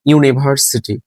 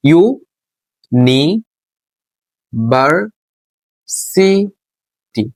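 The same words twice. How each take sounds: First: Said in the usual way. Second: university very slow, long gaps between ইউ, নি, ভার, সি, টি; syllable by syllable. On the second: Shown as a demonstration. Teacher showing the separate parts of an example word, syllable by syllable. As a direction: pull university apart, each syllable stretched on its own. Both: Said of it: "অর্থাৎ city আলাদা".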